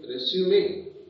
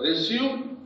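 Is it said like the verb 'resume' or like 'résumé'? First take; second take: résumé; verb resume. First: It sounds like the noun résumé, with a final vowel. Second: It sounds like the verb meaning to continue. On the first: The word means a biodata. The speaker calls it right. "So you have to hereafter say" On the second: The word means to continue. The speaker calls it wrong. "it's wrong pronunciation"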